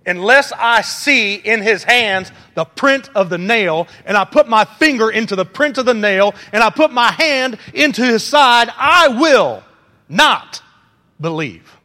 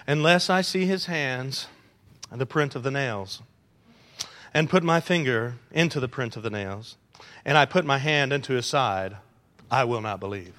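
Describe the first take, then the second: First: Defiant ultimatum. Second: Soft, flat reading without attitude; plain reading. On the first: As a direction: demand it like an ultimatum, each put pushed harder. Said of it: "You give an ultimatum like this". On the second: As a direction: read it low and mild, no edge. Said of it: "You can't read what Thomas said in a plain voice". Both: Shown as a demonstration.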